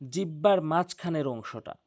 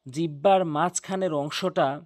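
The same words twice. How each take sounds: The two takes are said the same way.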